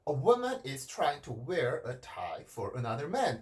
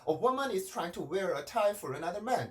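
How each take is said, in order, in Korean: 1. tie 단어에서 음높이가 낮게 떨어져요. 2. tie 단어 내내 음높이가 그대로 유지돼요. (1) "이런 식으로 톤을 낮춰줍니다" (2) "이렇게 하면 심심할 수도 있었던 문장인데"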